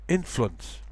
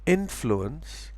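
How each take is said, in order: First: INFLUENCE squeezed to in-flunce; compressed syllables. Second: INFLUENCE as in-floo-ence, rising; full syllables. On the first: Teacher shows compression, two-syllable INFLUENCE. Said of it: "if you speak very quickly". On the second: Teacher shows full form, three-syllable INFLUENCE. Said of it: "pronounced with fewer syllables". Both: Shown as a demonstration.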